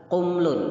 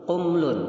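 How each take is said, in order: No difference in how they are said.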